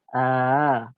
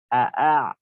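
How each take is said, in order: First: The second glottal stop is softened, between stop and vowel. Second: The second glottal stop is fully pronounced. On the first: The speaker calls it right. "bacaan ini antara hamzah dan alif" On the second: The speaker calls it wrong. "Kalau kita baca sempurna Hamzahnya"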